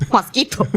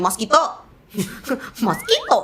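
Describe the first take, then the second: First: "Mosquito" with a Thai ending "kito"; Thai-accented "Mosquito". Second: "Mosquito" high with a lifted last syllable; Thai-accented pronunciation. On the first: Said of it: "but then in English". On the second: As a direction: pitch "Mosquito" up high, rising at the end. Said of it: "if I speak in my life". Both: Shown as a demonstration.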